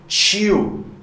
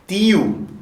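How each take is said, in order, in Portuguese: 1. É falado com sotaque sulista brasileiro. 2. É falado com sotaque nordestino brasileiro. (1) "Lá no Sul, Sudeste" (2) "aqui no Nordeste"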